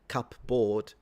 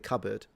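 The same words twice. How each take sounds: First: The second vowel is full, as spelled. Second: The second vowel is weak and reduced. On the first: The speaker calls it wrong. "You don't say cupboard" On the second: The speaker calls it right. "impoverished vowel, like the vowel in cupboard"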